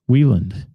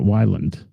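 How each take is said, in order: First: The first syllable sounds like 'wee'. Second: The first syllable sounds like 'why'. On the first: The speaker calls it right. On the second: The speaker calls it wrong. "not Weiland"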